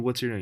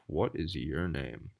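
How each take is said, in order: First: It is said in an ordinary speaking voice. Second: It is said in a lower, deeper voice. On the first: The speaker calls it wrong. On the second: The speaker calls it right. "the tone of my voice just gets a little lower, a little deeper"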